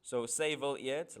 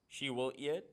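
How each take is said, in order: First: "say will eat" in Afrikaans sounds, slow, rising on say; Afrikaans word said. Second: Said in the usual way. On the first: Shown as a demonstration. Teacher sounding out the poem's Afrikaans for the class, slow and rising.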